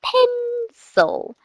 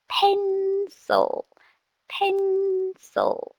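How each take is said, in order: First: "Pencil" split into two beats, higher; syllables split. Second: "Pencil" broken into pen-cil, higher and softer; syllables split. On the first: A teacher splitting "Pencil" into syllables for a student. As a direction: break "Pencil" into pen-cil. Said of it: "every two-syllable word, I normally break it up". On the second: A teacher modelling "pencil" slowly by syllables for a student. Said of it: "I normally break it up". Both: Shown as a demonstration.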